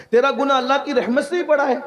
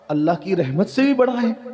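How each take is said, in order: First: High-pitched, emphatic challenge; incredulous question. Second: Said in the usual way. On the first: Retold or imitated. The master questions the sinner about God's mercy, incredulous. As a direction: repeat the question higher, pressing the point.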